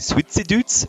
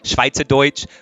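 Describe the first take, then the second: First: It is said with a Swiss German accent. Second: It is said with a Standard German accent.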